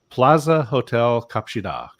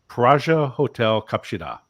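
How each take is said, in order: First: The first word is said with an L and Z. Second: The first word is said with an R and J. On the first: It is the English version of the name. The speaker calls it wrong. "my pronunciation of the Korean Korean version of Plaza Hotel didn't work" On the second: It is the Korean version of the name. The speaker calls it right. "L's become R's and Z's become J's"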